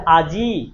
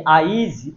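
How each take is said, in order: First: "আজি" with a long I at the end; final I pronounced. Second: "আইজ" slowly, with I sounded before the J; I moved forward. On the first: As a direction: hold the last vowel of "আজি". ("আজি"-র শেষে ই টেনে) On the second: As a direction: stretch "আইজ" as aa-iij. ("আইজ" টেনে, জ-এর আগে ই উচ্চারণ করে) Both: Shown as a demonstration. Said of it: "ইটা কোথায় উচ্চারণ করছি".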